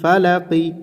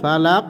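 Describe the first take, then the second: First: The word ends with a short i vowel. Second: The word ends on a bounced q sound. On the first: The reading continues without stopping. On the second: The reader stops at this word.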